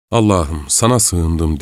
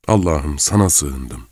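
First: Put-on a scared girl's short prayer, stress on sana; whisper-close plea to God, sana leaned on; frightened prayer. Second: Fading scared murmur; repeated frightened prayer. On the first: Frightened girl prays to God in the dark room, scared plea. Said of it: "Fakat ürkmüştü çok". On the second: Acted. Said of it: "Bu cümleyi kısa aralıklarla birkaç kere tekrarladı".

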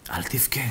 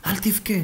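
First: Much softer, hushed don't cry; soft comfort. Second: Higher, softer coaxing don't cry; pleading comfort. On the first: Doctor soothing the weeping old man, hushed. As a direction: murmur it to soothe him. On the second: Doctor coaxing the old man to stop crying, higher. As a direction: lift it up to coax him. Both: Acted.

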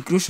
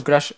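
First: "crush" said with a U vowel; crush pronounced "croosh". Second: "crush" said with an A vowel; crush pronounced "crash". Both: Shown as a demonstration. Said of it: "no sé cómo se dice".

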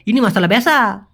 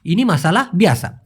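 First: "বেসা" said as a flat single e sound instead of bi-a-sa; regional mispronunciation. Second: "বিয়াসা" with a clear bi then a-sa, three distinct sounds; correct pronunciation. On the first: Teacher showing students the regional "বেসা" to avoid, squashed vowel. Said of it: "অনেকে আঞ্চলিক ক্ষেত্রে বলতে পারে". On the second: Teacher modelling the correct "বিয়াসা" for students, clear and deliberate. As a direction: give the proper form, opening bi-a-sa fully. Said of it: "বিয়াসাই হবে সঠিক". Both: Shown as a demonstration.

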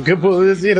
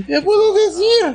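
First: Said in the usual way. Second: Very high, excited wail; overwhelmed squeal. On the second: Real, not acted. Fan at a loss for words after reveal, high overwhelmed squeal. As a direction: wail it helplessly, pitched way up.

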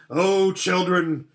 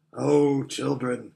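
First: Louder, slower, higher joyful call; playful lion call. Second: Put-on lion calling the children fondly; gentle lion voice. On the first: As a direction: call them to play, full of strength. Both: A narrator's reading. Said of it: "said the lion".

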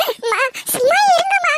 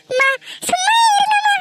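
First: Tearful plea. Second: Crying plea. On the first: Daughter begs mother again. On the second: Daughter cries out begging her mother to stop, sobbing. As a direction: beg her to stop through tears. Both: Acted.

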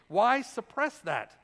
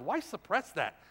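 First: "Why" pushed, slower and louder; emphatic repeat. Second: Said in the usual way. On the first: Acted. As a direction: drive the question home, slowly. Preacher repeats rhetorical question louder.

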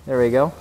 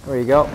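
No difference in how they are said.

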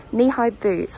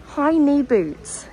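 First: Said in the usual way. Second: Says "high knee boots" slowly and unsure, words swapped; "high knee boots", hesitant slip; wrong word order. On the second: Real, not acted. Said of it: "Is that the right word?".

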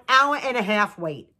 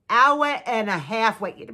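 First: Said in the usual way. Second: "hour and a half wait" slowed right down, each word leaned on; slow emphasis. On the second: Real, not acted.

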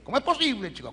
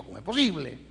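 First: Incredulous exclamation. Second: Said in the usual way. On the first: Real, not acted. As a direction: throw the question out in astonishment. Preacher exclaims in disbelief to audience.

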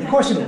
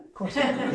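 First: Louder with a laugh, insisting; amused insistence; laughing emphatic answer. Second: Said in the usual way. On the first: Real, not acted. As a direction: laugh it out, sure of it. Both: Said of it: "do you think God would have to ask that".

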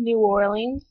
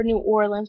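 First: "New Orleans" ending in or-LEENS; long-ee variant. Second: "New Orleans" said as OR-lunz; short-ending variant. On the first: Vlogger reading accent-challenge words, "New Orleans" as or-LEENS. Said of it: "or New Orleans". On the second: Offering the other option in an accent challenge, "New Orleans" as OR-lunz. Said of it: "that's how it's actually pronounced". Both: Shown as a demonstration.

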